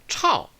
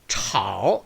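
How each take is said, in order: First: The tone falls sharply and strongly. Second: The tone dips low and then rises. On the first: "작고 강하게 炒 이렇게 되죠" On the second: "그래서 炒 이렇게 발음 안 되고요"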